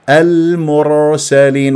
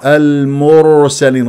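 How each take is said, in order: First: The r is said without any vowel. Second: The r carries a short u vowel. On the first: The speaker calls it right. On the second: The speaker calls it wrong.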